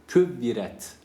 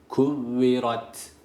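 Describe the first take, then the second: First: The r is light, with an e-like vowel. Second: The r is heavy, with an a-like vowel. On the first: The speaker calls it wrong. "küvviret doğru okuyuş olmaz" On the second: The speaker calls it right. "ra burada kalın okunması gerekir. A sesi veriyoruz"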